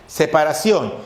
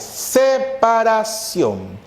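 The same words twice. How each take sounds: First: Said in the usual way. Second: "Separación" stretched very slow, starting on a long s; drawn-out emphasis. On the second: Shown as a demonstration. Teacher stressing the meaning of hiato to class, very slow. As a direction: pull "Separación" out syllable by syllable. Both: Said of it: "Separación de vocales".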